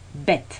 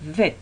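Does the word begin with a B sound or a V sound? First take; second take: B sound; V sound. First: The word begins with a B sound. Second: The word begins with a V sound. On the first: The letter has a dot inside it. "Si tenemos un punto, entonces en la lectura lo pronunciaríamos B" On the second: The letter has no dot inside it. "si no tenemos punto, sería como una V"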